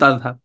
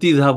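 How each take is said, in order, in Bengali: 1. মানক রূপ, প্রথম স্বরধ্বনি 'a' এর মতো শোনায়। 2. আঞ্চলিক রূপ, প্রথম স্বরধ্বনি 'i' এর মতো শোনায়। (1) "এটা বিশুদ্ধ তাযহাব" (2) "আঞ্চলিকতার ভিতরে গিয়ে কখনো তিযহাব হয়ে যায়"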